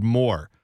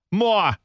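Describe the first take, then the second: First: Said in the usual way. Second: "More" said as "maw-ah", R dropped; high mock-Boston "More" without its R. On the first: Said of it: "the letter W into the word more". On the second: Shown as a demonstration. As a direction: stretch "More" into a Boston "mwah". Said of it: "get the letter W into the word more".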